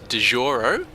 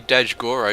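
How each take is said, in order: First: The middle G sound is left silent. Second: The middle G sound is clearly pronounced. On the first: The speaker calls it right. "with a bit of a silent G" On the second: The speaker calls it wrong.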